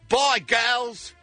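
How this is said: It is said in an Australian accent.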